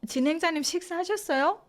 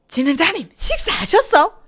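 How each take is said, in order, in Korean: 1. 표준적이고 부드러운 서울 억양으로 말하고 있어요. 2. 강하고 거친 북부 국경 지역 억양으로 말하고 있어요. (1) "이렇게 하는 것도" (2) "이렇게 얘기를 한다고요"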